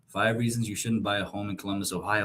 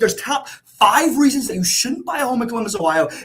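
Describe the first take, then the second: First: It is said flatly, without conviction. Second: It is said with energy and conviction.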